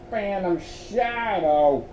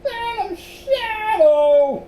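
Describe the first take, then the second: First: Slow, slightly raised, uneasy reading; gulping dread. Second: Very high, loud, drawn-out squeak; small frightened voice. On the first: Luan reads the note's signature, gulping dread. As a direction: finish the ominous signature slowly, uneasily. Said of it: "finished with a gulp". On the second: Miles repeats the ghostly name, small frightened squeal. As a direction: squeal it slowly in a tiny scared voice. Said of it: "repeated in a small voice". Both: A narrator's reading.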